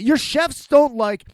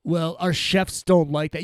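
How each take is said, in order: First: Higher, slow incredulous echo; indignant echo. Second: Said in the usual way. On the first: Retold or imitated. Customer echoing the staff's excuse back at them, indignant. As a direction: throw it back in disbelief, stretched out.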